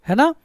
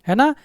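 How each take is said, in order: Both takes have the same delivery.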